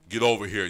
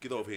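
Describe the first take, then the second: First: The voice is rough, harsh and unattractive. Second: The voice is low, soft and seductive. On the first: The woman sounds off-putting. "a woman that got the worst voice" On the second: The woman sounds alluring. "woman tell you with a sexy ass voice"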